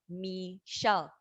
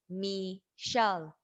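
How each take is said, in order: No difference in how they are said.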